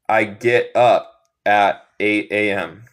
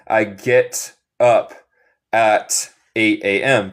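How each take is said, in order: First: The final T sounds are dropped. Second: The final T sounds are clearly pronounced. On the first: This is how it sounds in the United States. "en los Estados Unidos comen los T's finales" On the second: This is a neutral way of speaking English. "Se puede decir el T final si quieres. Esto sería inglés neutral"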